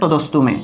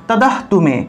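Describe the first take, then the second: First: The cluster is kept together as st. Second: The cluster is split, with an h sound. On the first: The speaker calls it right. "আর যদি না ভাঙেন তাহলে তদস্তু মে" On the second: The speaker calls it wrong. "যদি আপনারা ভাঙেন তাহলে সেই ক্ষেত্রে উচ্চারণ কি হবে"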